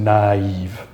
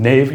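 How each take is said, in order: First: "naive" stretched as na-EEV; drawn-out "naive", vowels broken apart; two separate vowels. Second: "nave" as one syllable; unsplit, one-vowel "nave"; merged vowel. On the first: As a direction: slowly split "naive" into ah and ee. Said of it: "Two separate vowel sounds". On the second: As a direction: say "nave" with a single eh sound. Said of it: "You're not saying nave". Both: Shown as a demonstration.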